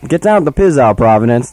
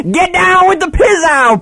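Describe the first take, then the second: First: Said in the usual way. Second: High, slow hyped busker shout; street musician impression. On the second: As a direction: stretch it out like a street performer. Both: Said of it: "That's actually a quote from street musician".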